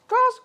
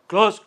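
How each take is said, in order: First: It is said in a put-on queen's voice. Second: It is said in a put-on king's voice. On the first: "queen's voice" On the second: "king's voice"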